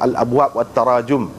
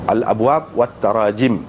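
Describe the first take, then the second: First: The last word ends with the vowel u. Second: The last word ends with the vowel i. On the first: The speaker calls it wrong. "tak kena. Bukan gitu" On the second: The speaker calls it right. "itu jamaknya yang betul"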